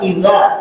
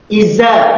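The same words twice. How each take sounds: First: It is said in standard Arabic, with soft th. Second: It is said in a Sumatran accent, with z.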